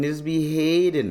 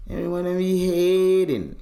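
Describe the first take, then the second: First: Said in the usual way. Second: Mock-mournful complaint; stretched lament. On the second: Shown as a demonstration. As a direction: wail the word hating.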